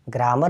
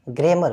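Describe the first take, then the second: First: ग्रामर said with an open a, "graamar", as the mistaken form; wrong pronunciation. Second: ग्रामर said "gremar", with an e-like first vowel; correct pronunciation. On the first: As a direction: demonstrate the wrong ग्रामर, vowel like in "raam". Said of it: "ग्रामर नहीं बोलते हैं". (ग्रामर का गलत उच्चारण, "ग्रा" खुले आ के साथ) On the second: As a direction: show the right ग्रामर, first vowel close to e. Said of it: "ग्रामर बोलते हैं". (ग्रामर का सही उच्चारण, "ग्रे" जैसी ध्वनि के साथ) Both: Shown as a demonstration.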